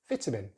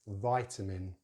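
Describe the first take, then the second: First: The first vowel is a short relaxed vowel. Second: The first vowel is a gliding diphthong. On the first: "But in British English" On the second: "In American English, they use a diphthong, the I diphthong"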